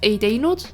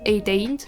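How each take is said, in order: First: The ending is said in full as nud. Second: The ending is shortened to nd. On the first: The speaker calls it wrong. "We don't say nude" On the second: The speaker calls it right. "we say nd"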